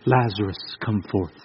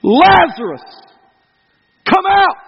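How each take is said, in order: First: Tiny hushed whisper, far too quiet; mock whisper. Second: Calling out to a dead man, full voice; loud shout. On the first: Shown as a demonstration. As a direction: whisper it as if afraid to wake him. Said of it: "Does it say he whispered". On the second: Acted. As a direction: shout his name into the tomb. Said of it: "he shouted with a loud voice".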